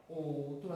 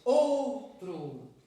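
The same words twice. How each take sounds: First: Said in the usual way. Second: "Outro" with a loud, drawn-out "Ou"; stress on OU. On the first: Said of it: "A sílaba tônica aqui está em". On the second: Shown as a demonstration. Teacher showing pupils the strong syllable, stressed "Outro". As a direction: punch and hold the start of "Outro". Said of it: "a sílaba forte".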